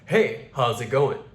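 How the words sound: It is said in a masculine voice with short S.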